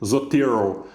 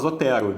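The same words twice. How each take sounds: First: It is said English-style with a more closed vowel. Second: It is said with Brazilian Portuguese vowels. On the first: "a pronúncia é, o anglo-saxônica, seria algo como o Zotero, né? mais, mais circunflexo" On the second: "vocês vão me ouvir falar Zotero"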